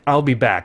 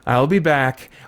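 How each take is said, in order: First: It is said plainly, with no extra feeling. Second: It is said wearily, like a tired routine chore. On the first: It simply states that the speaker will return. "that's the straightforward way to say that line" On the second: Others are failing, so the speaker must save the day again. "which had a subtext of, this is just humdrum activity"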